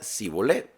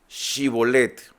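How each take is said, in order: First: The word begins with a plain s sound. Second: The word begins with an sh sound. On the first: The speaker calls it wrong. "él decía Sibolet, no decía Shibolet" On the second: The speaker calls it right. "ahora pues di Shibolet"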